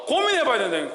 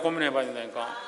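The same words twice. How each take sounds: First: Said in the usual way. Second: Much softer, lower repeat; soft, sinking afterthought; quiet echo. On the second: Real, not acted. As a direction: let the echo drop to a murmur. Echoed softly after first take.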